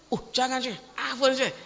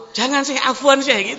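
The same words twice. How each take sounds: First: Said in the usual way. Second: Louder, higher "Jangan, Syekh", pleading; emphatic refusal. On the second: Retold or imitated. You would refuse the sheikh loudly and insistently. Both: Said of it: "Kalau antum".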